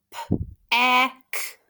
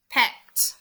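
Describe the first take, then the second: First: PECT broken into P, EH, K, T; sounded out. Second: Said in the usual way. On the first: Shown as a demonstration. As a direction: sound out PECT slowly, one sound at a time. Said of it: "stretch, and sound out these words". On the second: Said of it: "My second syllable".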